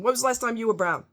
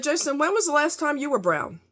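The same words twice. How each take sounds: First: WHEN said first with weight, the rest quicker; pressing the question again. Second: Quoting her own pointed question to her coworker; steady pointed question, a bit higher; retold comeback. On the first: Retold or imitated. Repeating her question to the coworker, stressing WHEN. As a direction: lean on "When" and rush the rest. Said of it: "'Cause he's like". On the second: Retold challenge to a coworker, pointed and a little higher. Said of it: "And I said".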